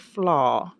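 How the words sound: The word is said in a posh way.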